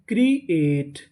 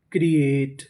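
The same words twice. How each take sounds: First: create split into two separate parts; a small break inside create; syllable by syllable. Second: Said in the usual way. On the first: Shown as a demonstration. Teacher sounds out a word for learners, create in two pieces. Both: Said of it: "create का मतलब".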